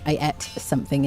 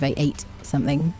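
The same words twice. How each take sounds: First: The vowel in 'ate' is short, like 'et'. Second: The vowel in 'ate' is long, like 'eight'. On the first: "sometimes people say et here" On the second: "instead of"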